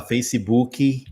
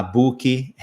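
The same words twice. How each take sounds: First: Facebook said Brazilian style as fejsibuki with an added i; the wrong way, Facebook with extra syllables; mispronounced Facebook. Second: Book said slowly as buki, with a final i; heavy book. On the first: Teacher shows the student's error in Facebook. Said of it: "comete o erro de falar Facebook". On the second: Teacher mimics the student's heavy book. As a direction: drag out book with an extra vowel at the end. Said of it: "de falar book". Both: Shown as a demonstration.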